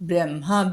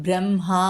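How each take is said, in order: The two takes are said the same way.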